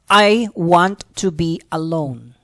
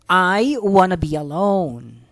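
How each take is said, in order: First: Said slowly, with want and to kept separate. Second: Want and to are linked into one word, wanna. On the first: "that's how it, it is gonna sound if you pronounce it slowly" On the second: "they would link the words want and to, so it becomes wanna"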